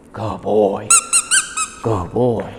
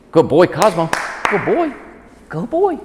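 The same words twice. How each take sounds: First: Said in the usual way. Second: Excited praise. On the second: Real, not acted. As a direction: praise the dog with rising excitement.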